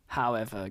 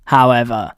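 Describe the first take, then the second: First: However dropped soft and low; a soft, low "however" that trails off; hushed however. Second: However said loud and low; a loud, low "however" to build suspense; emphatic however. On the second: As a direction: land "however" hard and low. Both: Real, not acted. Dramatic repeated however.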